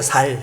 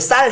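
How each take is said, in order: First: The first consonant is a plain s sound. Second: The first consonant is a tense s sound.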